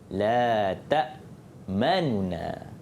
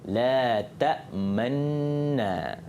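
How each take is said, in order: First: A faint short vowel separates the two n sounds. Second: The two n sounds merge with no vowel between. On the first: "bacaan dia sebahagian harkat. Bunyi sikit je" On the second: "idghamkan nun dan bagi isyarat dengan mulut yang muncung"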